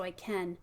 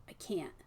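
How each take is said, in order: First: "I can" with the eh as in bed and a true N; eh vowel can. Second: "I can't" with a stopped nasal T; held N T stop. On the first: Teacher models the vowel of "I can". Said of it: "has the eh as in bed". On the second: Teacher models the ending of "I can't". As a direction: cut "can't" off short after the N. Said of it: "is really the ending sound". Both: Shown as a demonstration.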